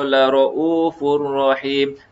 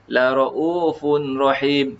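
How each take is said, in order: First: The n merges into the r of rahim. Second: A clear n sound comes before rahim. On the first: "jadi tidak perlu dengung" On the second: "kalau asal ada nun, ya, ada tanwin"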